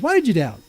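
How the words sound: It sounds like a dismissive throwaway rebuke.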